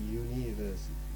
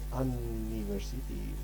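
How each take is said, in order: First: The word begins with a 'you' sound. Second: The word begins with an 'un' vowel sound. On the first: The speaker calls it right. "but you say university" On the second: The speaker calls it wrong. "You cannot say university"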